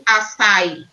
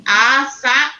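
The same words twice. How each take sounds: First: "açaí" without the final í stressed; wrong stress. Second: "açaí" with the final í raised and held; stress on the í. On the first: Teacher showing pupils what it cannot be, "açaí" with weak final í. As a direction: let the í of "açaí" fall away unstressed. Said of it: "não pode ser". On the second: Teacher showing pupils the right way, "açaí" with strong final í. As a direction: lift the voice on the last í of "açaí". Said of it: "Precisa ser pronunciado assim, ó, falado assim". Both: Shown as a demonstration.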